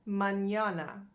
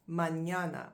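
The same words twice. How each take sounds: First: Mañana with a Spanish ñ, falling. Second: Said in the usual way. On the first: Shown as a demonstration. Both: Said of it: "Now, mañana".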